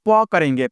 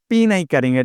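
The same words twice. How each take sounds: First: प as an open "pa"; प as the sound of letter P; Hindi sound for P. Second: पी as the English letter name, "pee"; पी named as in the alphabet. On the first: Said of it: "पी का उच्चारण हम". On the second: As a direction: say पी with a long ee. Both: Shown as a demonstration.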